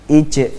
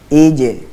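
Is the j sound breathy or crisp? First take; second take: breathy; crisp. First: The j leaks extra breath and sounds wet. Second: The j is closed fully with no extra breath. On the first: The speaker calls it wrong. "berlebihan dalam memberikan aliran nafas ... contohnya yang salah" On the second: The speaker calls it right. "Contohnya adalah"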